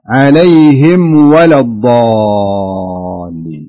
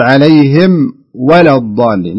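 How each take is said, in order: First: عليهم ولا الضالين in one loud, slow breath; joined without pause. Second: Slow عليهم, a clear break, then ولا الضالين; wrong pause. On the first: Teacher correcting caller, chanting عليهم ولا الضالين unbroken. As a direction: run عليهم straight into ولا الضالين, long held "ā". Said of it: "كملها". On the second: Teacher mimicking caller's error, pausing after عليهم. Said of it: "لا تسكت، لا تقول". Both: Shown as a demonstration.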